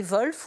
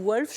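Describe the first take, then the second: First: "Wolf" said with an initial V, as Volf; Germanic pronunciation. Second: "Wolf" said with an initial W; English-style pronunciation. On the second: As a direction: pronounce "Wolf" as WOOLF, no V. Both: Shown as a demonstration. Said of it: "je sais pas comment vous le prononcez".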